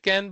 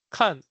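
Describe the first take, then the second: First: "can" with the English short a, as in cat; everyday English "can". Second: KAN with an open "ah" vowel, as in Chinese; Mandarin kan. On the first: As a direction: say "can" as the English word for ability. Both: Shown as a demonstration. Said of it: "which sounds like can".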